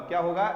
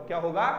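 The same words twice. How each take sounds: Both takes have the same delivery.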